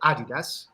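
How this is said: It is said with a British pronunciation. "as we say in England"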